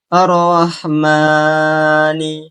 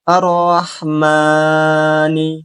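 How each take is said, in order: First: The vowel after m is held too long. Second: The vowel after m is held too long.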